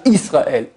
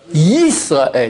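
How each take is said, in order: First: The word begins with a plain vowel. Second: The word begins with a y sound. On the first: The speaker calls it wrong. "Israël, c'est faux" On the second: The speaker calls it right. "Donc Shema, Yisraël. Yi"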